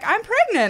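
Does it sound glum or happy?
happy. It is said in a happy, upbeat way.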